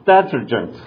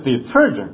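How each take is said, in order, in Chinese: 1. 重音在第一个音节。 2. 重音在后面的音节。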